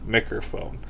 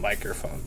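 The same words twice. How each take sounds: First: The first syllable sounds like 'mick'. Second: The first syllable sounds like 'mike'. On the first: The speaker calls it right. "It says Micker" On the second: The speaker calls it wrong.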